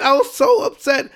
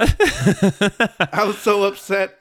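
First: Upset. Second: Slow, stretched-out exasperation; drawn-out upset. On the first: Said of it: "I'm losing my voice right now". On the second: Podcaster slowly dwelling on being upset with ESPN. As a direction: drag every word out wearily. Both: Real, not acted.

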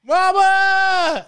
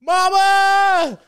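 First: Second desperate scream for his mother, still very high and loud; repeated anguished yell. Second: A soldier's anguished cry for his mother, screamed far higher and louder; retold desperate yell. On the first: Retold or imitated. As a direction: hold the same raw, high wail. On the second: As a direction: wail it out high and raw, like a dying soldier. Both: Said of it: "he just yells".

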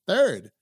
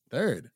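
First: Loud correction. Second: Said in the usual way. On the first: Real, not acted.

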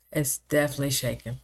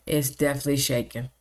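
No difference in how they are said.

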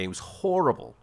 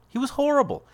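First: Said in the usual way. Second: "horrible" said much higher, stretched; emphatic repeat. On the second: Real, not acted. Host stressing how bad his friend was, "horrible" pitched high. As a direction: lean hard on "horrible" the second time.

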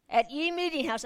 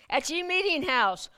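First: Higher pompous mock of archaic talk; old-fashioned pilgrim speech. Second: Higher, louder mock olde English; hammed-up pilgrim voice. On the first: Pastor savoring the King James wording in mock pilgrim voice. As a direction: savor the old-timey phrasing. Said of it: "they used to talk like this". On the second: Pastor repeating the phrase in mock pilgrim voice. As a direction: draw out the archaic line. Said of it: "This is the way they talked". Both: Shown as a demonstration.

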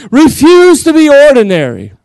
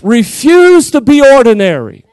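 First: Slow, higher, louder "Refuse to be ordinary" building to a climax; louder preaching. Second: Firm, slow preaching with weight on "Refuse"; slow "Refuse" punched firm, the line kept measured; preaching emphasis. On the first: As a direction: raise it up and hit "Refuse" hard. Preacher repeats line louder. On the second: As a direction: lean on "Refuse" like a pulpit command. Preacher repeats line to build. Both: Real, not acted.

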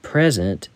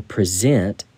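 First: "Present" stressed on the first syllable, PREZ-ent; noun stress. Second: "present" stressed on the second syllable, pri-ZENT; verb stress. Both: Shown as a demonstration. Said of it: "or present".

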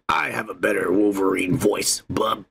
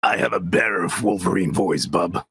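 First: Low gruff Wolverine growl; gruff snarling wolverine. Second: Low, gravelly Wolverine impression; gruff snarling wolverine. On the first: Pretend. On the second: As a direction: growl it out like Wolverine. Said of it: "Try your Wolverine".

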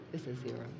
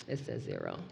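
First: Barely audible, dropping away; hushed dread. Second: Very low and near silent; deeper hushed dread. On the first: Storyteller hushing the camera's counter in dread. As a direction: let it fall almost silent with dread. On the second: Storyteller repeating the counter, lower and ominous. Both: Acted.

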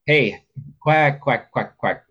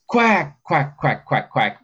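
First: Light, lilting quacks; greeting quacks. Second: High, punchy comeback quacks; forceful quacks. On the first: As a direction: bounce the quacks gently like a greeting. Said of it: "that's kind of a more of a greeting". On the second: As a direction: bark out urgent, forceful quacks. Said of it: "a comeback is more forceful". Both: Shown as a demonstration.

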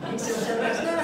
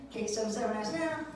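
First: Louder sing-song tagline with a rising now; mock jingle. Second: Plain first take of the jingle line; cheesy ad tagline read flat; mock jingle. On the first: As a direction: punch it like the end of a jingle. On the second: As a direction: say the number steady and level. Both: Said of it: "it goes something like this".

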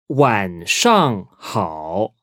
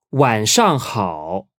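First: "晚上好" very slowly, each syllable apart; drawn-out, separated tones on "晚上好"; slow teaching model. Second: "晚上好" connected, still unhurried; slow but flowing "晚上好"; joined-up model. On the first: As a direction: sound out "晚上好" with pauses between syllables. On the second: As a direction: say "晚上好" as one careful phrase. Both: Shown as a demonstration.

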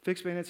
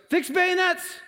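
First: Said in the usual way. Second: Very high, strained battle yell; screamed command. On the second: Retold or imitated. Commander orders his men to charge, screaming. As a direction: scream the order across the line. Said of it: "you hear the screams coming".

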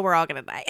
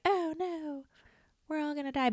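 First: Said in the usual way. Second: High, soft whiny wail of doom; softly mocking the doomsayers; mock despair. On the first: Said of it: "But guess what?". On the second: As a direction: whimper it like a panicked kid. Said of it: "nobody wants to be like".

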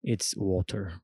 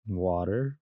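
First: "water" corrected to a British crisp T; imitating a Brit saying "water". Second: "water" said the American way, tapped middle; American-accented "water". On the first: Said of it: "he teach me". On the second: Retold or imitated. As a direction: ask for "water" in American pronunciation.

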